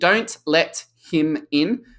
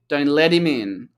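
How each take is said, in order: First: The T and the h are both clearly pronounced. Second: The T is a D-like flap and 'him' is reduced. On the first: "instead of hearing" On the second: "the flap T becomes a D sound"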